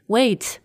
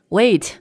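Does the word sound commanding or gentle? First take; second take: gentle; gentle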